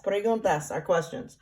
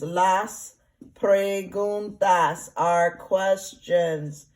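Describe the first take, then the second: First: Said in the usual way. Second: Preguntas said very slowly, syllable by syllable; slow modelled Spanish. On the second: Shown as a demonstration. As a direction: stretch out Las preguntas for the class to hear each sound. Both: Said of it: "And I'll spell that".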